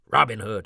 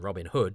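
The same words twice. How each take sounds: First: The stress falls on the first word. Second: The stress falls on the second word. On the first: This is how Americans say the name. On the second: This is how the speaker says the name.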